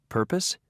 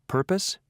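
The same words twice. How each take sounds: The two takes are said the same way.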